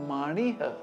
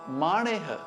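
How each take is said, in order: First: The final vowel sounds like ih. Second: The final vowel sounds like eh. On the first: The speaker calls it wrong. "It is not manih" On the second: The speaker calls it right. "the word is maneh"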